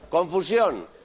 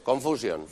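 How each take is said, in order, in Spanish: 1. Se dice con acento español. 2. Se dice con acento inglés. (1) "coger una palabra en español" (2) "cambiarle la entonación"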